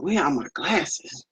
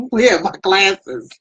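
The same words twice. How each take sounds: First: Retold mutter. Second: Laughing retold question. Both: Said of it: "I was up there going".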